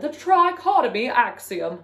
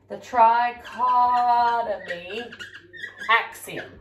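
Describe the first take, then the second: First: It is said in a put-on British accent. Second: It is said in the speaker's normal American accent.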